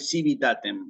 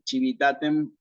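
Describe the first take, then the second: First: The word begins with an s sound. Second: The word begins with a ch sound. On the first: The speaker calls it wrong. "está mal pronunciada en latín eclesiástico" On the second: The speaker calls it right. "característica de pronunciación eclesiástica"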